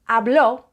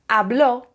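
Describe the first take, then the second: Both takes have the same delivery.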